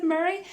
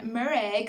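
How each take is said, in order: First: Said in the usual way. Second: "Murray" said as "Mur-ray", ending in a long "ay"; "Murray" with an exaggerated "-ay" ending; imitating odd name pronunciation. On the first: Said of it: "calling him instead of Murray". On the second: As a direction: draw out the last syllable of "Murray". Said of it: "the way he was saying Murray".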